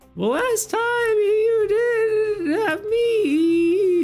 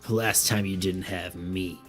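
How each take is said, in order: First: It is said in a cuter character voice. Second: It is said in a plain character voice.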